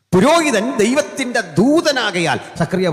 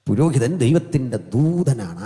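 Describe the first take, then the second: First: High, loud scripture declamation; full-force preaching. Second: Said in the usual way. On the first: Real, not acted. Preacher quoting the prophet on priests, full-force preaching. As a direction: proclaim it in a raised pulpit voice.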